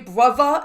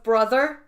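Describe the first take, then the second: First: It is said in a British accent. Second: It is said in an American accent. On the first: The speaker calls it wrong. "they say brother" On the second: The speaker calls it right. "instead of brother"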